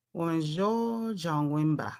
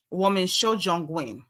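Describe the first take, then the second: First: "Woman Jo Jongwenba" drawn out slowly and softer, each syllable placed as wǒmen xué zhōngwén ba; slow down and sound out "Woman Jo Jongwenba" like a practice drill; careful Mandarin retry. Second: "woman Shojongwen" sounded out slowly as wǒmen xué zhōngwén, a Chinese learner's first try; trying out Mandarin. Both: Shown as a demonstration. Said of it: "we can learn to speak Chinese".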